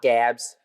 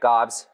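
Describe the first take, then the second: First: The vowel is the front 'a' sound. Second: The vowel is the open 'ah' sound. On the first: The speaker calls it wrong. "people say Gabs" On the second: The speaker calls it right. "so yeah, Gobs"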